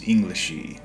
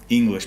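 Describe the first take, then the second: First: An extra vowel is added after the final consonant. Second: The word ends on its final consonant.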